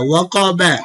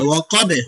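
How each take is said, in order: First: The word ends with a short vowel after b. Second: The word ends on the b consonant, vowel dropped. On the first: "বা জবর বা ওয়াকাবা" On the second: "ওকফের সময় বা সাকিন হবে"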